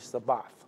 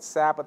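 First: The word has its original Hebrew pronunciation. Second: The word has its modern English pronunciation. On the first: "but in the Hebrew it's actually Sabbath" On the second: "We call it Sabbath in our modern day language"

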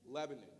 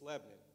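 First: The middle O is weak and reduced. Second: The middle vowel drops; two syllables.

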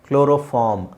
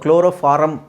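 First: The final syllable ends without an extra vowel. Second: An extra vowel is inserted before the final m. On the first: The speaker calls it right. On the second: The speaker calls it wrong.

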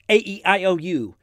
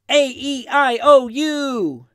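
First: The letters are said at a fast pace. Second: The letters are said at a steady pace.

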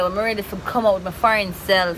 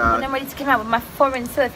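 First: It is said in her usual, non-British accent. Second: It is said in a put-on British accent.

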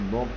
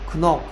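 First: The word starts with an N sound. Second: The word starts with a K sound. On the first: The speaker calls it right. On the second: The speaker calls it wrong. "크넉 아니고"

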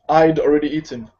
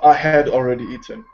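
First: "I had" is contracted to "I'd" with no h. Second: "I had" is said in full with an h. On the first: This is natural, fluent everyday speech. The speaker calls it right. "the way you pronounce it as a native" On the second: This sounds formal or classical. The speaker calls it wrong. "No, ... if you speak maybe a bit more classical in British or you're speaking formally"

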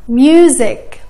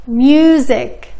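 The two takes are said the same way.

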